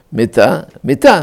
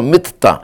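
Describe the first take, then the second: First: מיטה with a single t, "mi-ta"; מיטה with light, short t; without dagesh. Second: מיטה with a doubled t, "mit-ta"; מיטה with strongly geminated t; with dagesh. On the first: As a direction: let the t in מיטה pass undoubled. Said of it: "לא מבטא את הדגש". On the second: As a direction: hold the t closure in מיטה. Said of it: "מיטה בדגש". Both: Shown as a demonstration.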